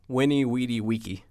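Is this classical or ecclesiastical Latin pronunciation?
classical. It uses classical Latin pronunciation.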